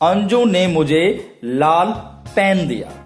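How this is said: The word for pen is stressed. It was a pen and nothing else. "पेन पर जोर देने से"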